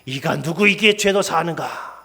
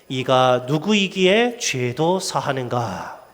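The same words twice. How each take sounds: First: It is said with rising, passionate anger. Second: It is read in a plain, neutral tone.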